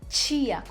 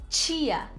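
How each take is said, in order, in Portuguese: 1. O T é chiado, como o som de ch. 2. O T é chiado, como o som de ch.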